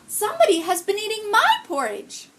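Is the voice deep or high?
high. It is said in a higher Mama Bear voice.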